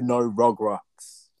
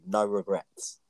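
First: Regrets is said with the tattoo's odd pronunciation. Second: Regrets is said with its usual pronunciation. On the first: The speaker calls it wrong. "'Cause that tattoo says" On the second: The speaker calls it right. "This is literally me saying it normally"

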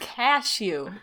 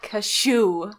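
First: The word is said in a plain, ordinary way. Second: The word is said like the sound of a sneeze. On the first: The speaker calls it right. "Say it normal" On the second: The speaker calls it wrong. "It's not like a fucking sneeze"

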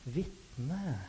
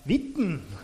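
First: The word ends with a clear final e vowel. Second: The word ends without a final e vowel. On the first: This is the listeners' local dialect form. The speaker calls it right. "så har dere en sånn fin E på slutten" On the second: This is the speaker's own dialect form. The speaker calls it wrong. "Mens på min dialekt så har jeg det blir veldig rart"

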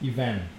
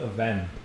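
First: The word is said in a British accent. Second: The word is said in an American accent. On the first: "kalau di British kedengarannya kayak event" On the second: "kalau secara American itu event"

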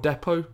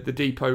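First: The word has an English-style pronunciation. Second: The word has an American-style pronunciation. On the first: The speaker calls it right. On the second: The speaker calls it wrong.

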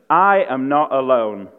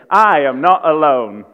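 First: It is said plainly, without special conviction. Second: It is said forcefully, with conviction.

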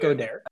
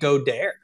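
First: The name is pronounced with a plain English pronunciation. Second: The name is pronounced with a French-sounding pronunciation. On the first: "Is it not Goddard?" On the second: "I've been pronouncing it Goddard"

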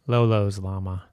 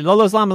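First: The phrase is said at a normal pace. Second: The phrase is said very fast.

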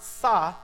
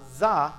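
First: It begins with a plain s sound. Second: It begins with a buzzing z sound. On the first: "not sa" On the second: "not za"

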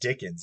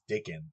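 First: The name ends with an s sound. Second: The name ends without an s sound. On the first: The speaker calls it wrong. "It isn't even Dickens" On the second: The speaker calls it right. "It's Dickin"

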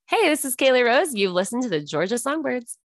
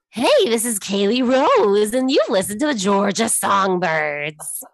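First: It is said in her normal, happy, perky voice. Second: It is said in a put-on teen witch voice.

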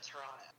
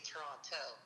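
First: It is pronounced the way locals say it. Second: It is pronounced the way outsiders say it. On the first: The speaker is a native of the city. The speaker calls it right. "instead of" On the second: The speaker does not live in the city. The speaker calls it wrong. "somebody who's not living in Toronto because they say Toronto"

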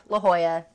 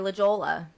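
First: The double L is not pronounced as an L. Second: The double L is pronounced as an L. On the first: The speaker is a local. The speaker calls it right. "that's how you say it" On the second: The speaker is a tourist. The speaker calls it wrong. "people go to San Diego and they say La Jolla"

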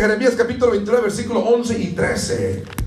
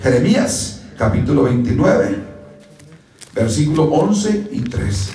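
First: It is said fast. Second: It is said slowly.

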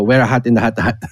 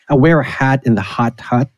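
First: Hat, hot and hut share similar vowels. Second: Hat, hot and hut have three distinct vowels. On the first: This is how a Filipino speaker would say it. "like a Pinoy would go" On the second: This is the intended English pronunciation. "if someone tries to say"

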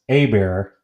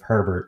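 First: It is said without the H and final T. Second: It is said with the H and final T. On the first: This is the regional way the name is read. The speaker calls it wrong. "that's sometimes pronounced Abear, where I'm from" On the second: This is the standard way the name is read. The speaker calls it right. "instead of Herbert"

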